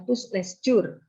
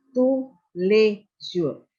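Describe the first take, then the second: First: Tous les jours misread as "tus les jur"; wrong pronunciation. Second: Tous les jours as slow "tu le zhur"; tous les jours syllable by syllable, s's silent; correct French pronunciation. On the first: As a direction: sound the silent s's in tous les jours. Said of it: "bukan tous les jours". (tous les jours salah dibaca "tus les jur", huruf s berbunyi) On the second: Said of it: "tapi tous les jours". (tous les jours dibaca pelan "tu le zhur") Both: Shown as a demonstration.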